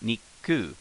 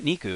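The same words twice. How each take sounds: First: A small pause comes before the ku. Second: It is said smoothly with no pause before ku. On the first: The speaker calls it right. "there's a small pause and then a start pronunciation of the next syllable" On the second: The speaker calls it wrong. "It's not Niku"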